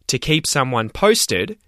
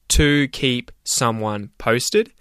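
First: The words run together with reduced, linked sounds. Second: Each word is pronounced fully and separately. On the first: "where I say things like" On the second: "instead of"

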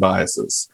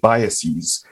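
First: The word is said the ordinary, everyday way. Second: The word is said an unusual, fancier way. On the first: This is the usual pronunciation. The speaker calls it right. "Because it's processes and biases" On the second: It is meant to sound more scientific and impressive. The speaker calls it wrong. "they start pronouncing it biases and processes"

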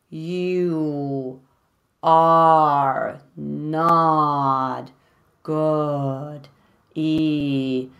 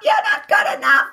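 First: It is said slowly in a plain voice. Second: It is said in a high Mickey Mouse voice.

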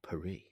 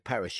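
First: The name has a French-style pronunciation. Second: The name has an ordinary English pronunciation. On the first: "you go Paris" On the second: "if you said Paris"

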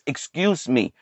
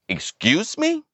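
First: It is said politely, with a courteous tone. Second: It is said rudely, with indignant attitude.

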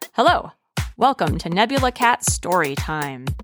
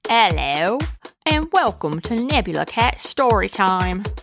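First: It is said in her normal voice. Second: It is said in a put-on voice.

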